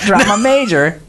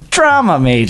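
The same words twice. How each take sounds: First: The stress falls on the second word. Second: The stress falls on the first word. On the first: The speaker calls it wrong. "Not Drama Major" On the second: The speaker calls it right. "you emphasize the first. word"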